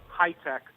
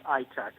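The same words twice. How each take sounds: First: Said in the usual way. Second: "I tech" with the H dropped, as Israelis say it; Israeli-accented high tech. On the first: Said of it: "pronounce it kind of like". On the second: Shown as a demonstration. Guest explains how Israelis say the ticker, "I tech" without the H. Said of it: "Israelis pronounce high tech with".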